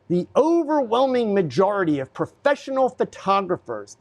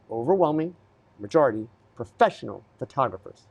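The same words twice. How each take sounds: First: OVERWHELMING pitched high, phrase flowing on; emphatic statement. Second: OVERWHELMING, MAJORITY, PROFESSIONAL set apart by pauses; deliberate repetition. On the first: Photographer correcting older viewers about professionals, emphatic. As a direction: announce "overwhelming majority" high, in one run. Makes point, then repeats it slowly. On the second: Photographer driving the point home to older viewers, deliberate. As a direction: drop lower, isolate "overwhelming" and "majority" for weight. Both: Real, not acted.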